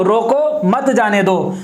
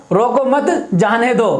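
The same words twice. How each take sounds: First: "रोको" on its own, then "मत जाने दो" as one phrase; pause after रोको. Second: "रोको मत" as one phrase, then "जाने दो" apart; pause after मत. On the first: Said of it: "वो कहना ये चाह". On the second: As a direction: keep मत with रोको, break before जाने दो. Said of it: "सुनने वाला उसमें क्या कहेगा?". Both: Shown as a demonstration.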